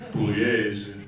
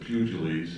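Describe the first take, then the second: First: The name is said in the Italian way. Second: The name is said in an anglicized way. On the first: This is the original family pronunciation. "his name is actually Pugliese ... because it's an Italian name" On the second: This is how the nun said it, and the family kept it.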